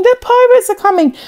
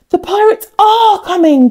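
First: High, fast, urgent shout of warning; frantic alarm call. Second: High, gasping alarm; gasped. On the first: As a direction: shout it to wake the whole village. Boy raises the pirate alarm. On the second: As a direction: gasp it in sudden fright. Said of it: "gasped the villagers". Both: Acted.

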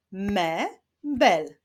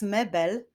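First: "mebel" split as me, pause, bel; syllable by syllable. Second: Said in the usual way. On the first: Shown as a demonstration. Teacher leading syllable clapping, "mebel" said syllable by syllable. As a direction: sound out "mebel" in two beats. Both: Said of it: "Zapraszam do wyklaskiwania".

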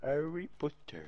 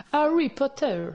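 First: "Harry Potter" slow and soft, posh English vowels, drawn-out "Harry"; breathy, haughty British "Harry Potter"; snob English accent. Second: Put-on "Harry Potter" in a light posh English accent, H breathed, tongue-tip R; snob English accent. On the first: Pretend. (accent anglais snob, lent et feutré) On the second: (accent anglais snob sur « Harry Potter ») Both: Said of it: "Dites Harry Potter avec un accent anglais snob".

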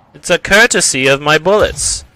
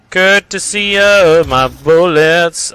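First: Said in the usual way. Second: Slow, stretched "Courtesy of my bullets"; drawn-out taunt. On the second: Pretend. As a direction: drag out each word of "Courtesy of my bullets" mockingly. Repeats taunt drawn out for effect.

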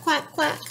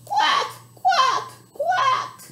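First: Said in the usual way. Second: Duck call. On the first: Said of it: "Can you help Papa Duck say". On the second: Shown as a demonstration. Librarian showing kids how Papa Duck quacks. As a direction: model the quack for kids to copy. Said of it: "Can you help Papa Duck say quack".

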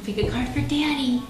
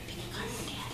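First: Said in the usual way. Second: Very soft, voiceless whisper. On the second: Shown as a demonstration. Parent has child pick a card for Daddy, whispering. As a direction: whisper the instruction under your breath. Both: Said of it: "Can we whisper?".

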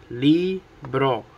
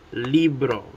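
First: Libro broken into LI, pause, BRO; split into syllables. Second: Said in the usual way. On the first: Shown as a demonstration. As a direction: say libro one syllable at a time. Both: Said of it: "Two syllables".

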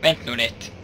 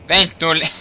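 First: Said in the usual way. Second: Louder. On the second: Shown as a demonstration. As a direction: say it louder, more urgent. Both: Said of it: "repeats louder".

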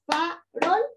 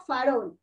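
First: "farol" slowly split in two, fa-rol; syllable by syllable. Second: Said in the usual way. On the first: Shown as a demonstration. Teacher has the class count, "farol" in two slow syllables. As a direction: say "farol" as two separate beats. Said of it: "son dos". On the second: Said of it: "A ver todos".

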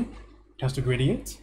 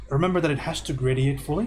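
First: "It has to gradiate" said slowly, leaning on "gradiate"; slow emphatic repeat. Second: Said in the usual way. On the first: Shown as a demonstration. Art teacher repeating the rule to a student, slow and emphatic. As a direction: drag out "gradiate" slowly so the point sticks.

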